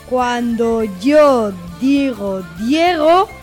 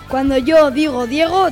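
First: The phrase is spoken at a slow speed. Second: The phrase is spoken at a medium speed. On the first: "Vamos con la velocidad lenta" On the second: "Ahora vamos con la velocidad media"

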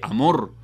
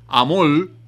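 First: The final consonant is pronounced as an r. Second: The final consonant is pronounced as an l. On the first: The speaker calls it right. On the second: The speaker calls it wrong.

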